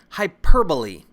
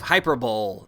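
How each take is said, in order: First: It ends like 'bolee', with four syllables. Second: It ends like 'bowl', with three syllables. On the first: The speaker calls it right. "It's hyperbole" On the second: The speaker calls it wrong. "No, that's not how you pronounce it"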